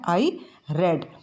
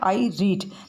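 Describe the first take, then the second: First: The vowel is short, as in 'bed'. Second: The vowel is long, as in 'seed'. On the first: The action is already finished. "जब उसको पढ़ते हैं तो वो हो जाता है I रेड" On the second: The action is present or ongoing. "यहाँ पर भी है आई रीड"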